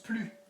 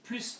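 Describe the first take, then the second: First: The final S sound is silent. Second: The final S sound is pronounced. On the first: It is followed by an adjective. "then here it becomes plus. You don't pronounce the S" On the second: It is followed by de, meaning more of. "you do have to pronounce it plus de"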